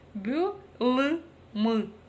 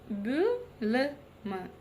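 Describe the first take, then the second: First: The vowels are hard, like Russian ы. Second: The vowels are short and between ы and и. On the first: The speaker calls it wrong. "если мы прочитаем через букву «ы»" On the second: The speaker calls it right. "ровно та самая мягкость, которая нам необходима"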